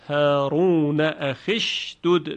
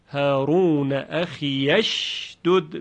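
First: The ya is dropped, joining akh straight to shdud. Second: The ya is voiced with an a-vowel before shdud. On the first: "اگر ما در روایت حفص وصل بکنیم چجوری میخونیم" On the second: "یا اضافه رو مفتوح خونده"

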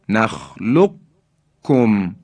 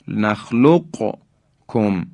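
First: The q merges into a doubled, strong k. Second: The q is pronounced separately before the k. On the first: "قاف در کاف ادغام میشه و ما کاف رو مشدد و محکم بیان میکنیم" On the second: "قاف رو تلفظ کنیم و در کاف هم ادغام نکنیم"

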